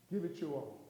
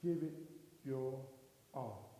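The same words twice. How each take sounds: First: Said in the usual way. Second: "Give it", pause, "your", pause, "all", sinking low and soft; word-by-word emphasis. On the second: Real, not acted. Speaker closing his speech, "Give it... your... all" slowly dropping. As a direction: space out "your" and "all", each lower.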